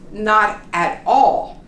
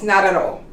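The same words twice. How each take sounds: First: Each word is enunciated separately with clear T sounds. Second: The words run together with R-like T sounds. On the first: "very carefully and you enunciate each word" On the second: "what we really say when we're speaking with our friends"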